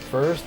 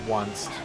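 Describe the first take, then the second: First: It is said as the usual word 'first'. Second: It is said as 'one' followed by 'st'.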